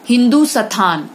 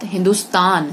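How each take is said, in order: First: हिंदू स्थान with long "oo" and "sthaan"; wrong form. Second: Said in the usual way. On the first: Shown as a demonstration. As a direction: split it as "Hindoo-sathaan" for हिंदू स्थान. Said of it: "गलत". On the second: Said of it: "सही".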